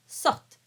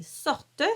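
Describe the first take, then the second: First: Sorte clipped, final T only; sorte in one syllable. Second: Sorte with a sounded final E; sorte in two syllables. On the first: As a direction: smush sorte together. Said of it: "we smush it together". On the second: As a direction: say sor-te fully. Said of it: "two syllables normally". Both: Shown as a demonstration.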